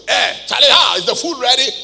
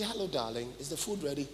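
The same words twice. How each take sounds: First: Loud, blunt call for food; a loud, rough demand of the wife; rude husband demand. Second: Much softer, sweet-talking the wife; a soft, tender request to the wife; polite loving request. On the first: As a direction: shout it like an uncouth husband. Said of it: "don't, don't talk like that". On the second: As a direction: ask gently, like a caring husband. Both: Retold or imitated.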